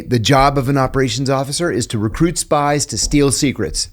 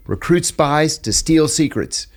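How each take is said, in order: First: Said in the usual way. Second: "Recruit spies to steal secrets" slowed right down, "steal" stressed hardest; slow emphatic motto. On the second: Retold or imitated. Mentor drilling trainees on his motto, slow and emphatic. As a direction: drive the motto home slowly, leaning on "steal".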